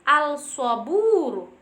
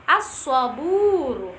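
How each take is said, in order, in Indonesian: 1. Huruf L dibaca sebelum huruf S. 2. Huruf L menyatu dengan S yang bertasydid. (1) "tidak bisa dibaca dengan al-saburu" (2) "harus dibaca dengan e, idgham syamsiyah"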